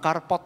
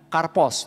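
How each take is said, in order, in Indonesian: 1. Kata itu diakhiri dengan bunyi t. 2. Kata itu diakhiri dengan bunyi s. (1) "Bukan karpot ya" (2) "Katakan karpos"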